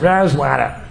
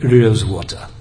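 First: It is said in an American accent. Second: It is said in a British accent. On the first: "like Americans" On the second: "he spoke with a perfect British accent, like"

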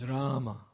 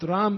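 First: The name ends with a vowel after m. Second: The name ends on the m sound. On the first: The speaker calls it right. "It's Rama" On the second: The speaker calls it wrong. "It's not Ram either"

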